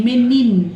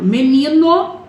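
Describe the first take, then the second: First: MENINO cut back to its stem, ending on the N. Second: MENINO higher, rising into a held final O; final O highlighted. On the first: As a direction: say MENINO with the final O dropped, falling. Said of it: "só vai até o N". (MENINO sem o O final, parando no N) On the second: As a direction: say MENINO whole, lifting the final O. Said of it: "termina com a vogal O". (MENINO com o O final destacado, subindo) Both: Shown as a demonstration.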